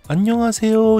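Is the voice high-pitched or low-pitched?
high-pitched. It is spoken in a high-pitched voice. "이렇게 고음으로 얘기를 하잖아요"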